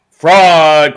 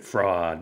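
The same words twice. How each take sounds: First: Loud, higher outraged shout; angry crowd cry. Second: Soft, lower distant echo; faint echo. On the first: Maddened crowd yelling at the umpire, loud. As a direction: hurl the word like a furious crowd. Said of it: "cried the maddened thousands". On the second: The echo answering the crowd, soft and low. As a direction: let it come back faint and far away. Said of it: "and the echo answered". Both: Acted.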